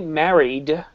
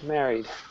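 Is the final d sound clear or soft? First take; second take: clear; soft. First: The final d sound is clearly pronounced. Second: The final d sound is very soft. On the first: "I didn't say married" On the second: "It was very soft, wasn't it?"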